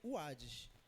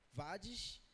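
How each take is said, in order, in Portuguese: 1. A palavra começa com som de W. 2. A palavra começa com som de V. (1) "mas se pronuncia o Hades, dessa forma" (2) "se escreve W A D I S"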